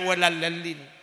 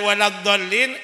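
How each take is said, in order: First: The middle consonant is an 'l' sound. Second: The middle consonant is a 'dh' sound. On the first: The speaker calls it wrong. "e baca walallalin" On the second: The speaker calls it right. "Maca waladhdallin"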